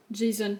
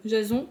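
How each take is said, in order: First: Jason said the English way, "djé-zonn"; English-style name. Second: Jason said the French way, "ja-zon" with a nasal end; French pronunciation. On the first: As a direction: Jason with an English J and an open e, softly unsure. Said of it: "Je sais pas comment le prononcer". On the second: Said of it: "à la française". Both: Shown as a demonstration.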